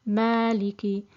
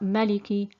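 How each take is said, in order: First: The first vowel is held long. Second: The first vowel is said short. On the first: The speaker calls it right. "this alif is uh, lengthened for two counts" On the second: The speaker calls it wrong. "not Maliki"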